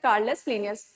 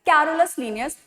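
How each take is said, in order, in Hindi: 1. पहला नाम दो अक्षरों में बोला जाता है। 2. पहला नाम तीन अक्षरों में बोला जाता है। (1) "बट जब प्रोनाउंस करेंगे" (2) "जब भी हम लिखेंगे तो हम लोग क्या लिखेंगे"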